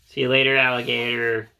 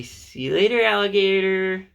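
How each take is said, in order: First: Said in the usual way. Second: High, loud playful sing-song. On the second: Shown as a demonstration.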